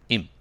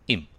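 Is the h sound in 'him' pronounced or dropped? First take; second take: dropped; dropped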